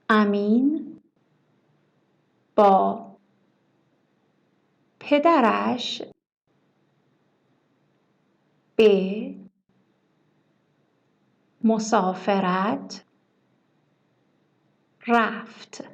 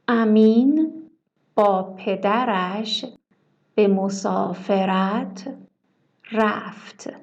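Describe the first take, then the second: First: Each word is separated by a pause. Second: The words run together without pauses. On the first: "Please repeat word by word" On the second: "Shadow, it means try to repeat with me"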